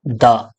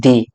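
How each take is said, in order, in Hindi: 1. यह शब्द छोटे 'uh' स्वर पर खत्म होता है। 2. यह शब्द लंबे 'ee' स्वर पर खत्म होता है। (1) "और जब कॉन्सोनेंट साउंड के साथ में आएगा तो उसको क्या बोलेंगे? द।" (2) "जब वॉवेल के साथ में अगर आएगा ना द, तो इसको क्या बोलेंगे हम लोग? दी।"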